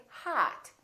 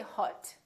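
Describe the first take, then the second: First: "hot" with the "ah" of father; "hot" with a wide, unrounded "ah"; open ah vowel. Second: "hot" with a rounded O vowel; mispronounced "hot", O as spelled; wrong vowel demo. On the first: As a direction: say "hot" as "haht". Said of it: "pronounced exactly as the ah". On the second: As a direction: say "hot" with rounded lips, not "ah". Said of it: "we don't say hot". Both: Shown as a demonstration.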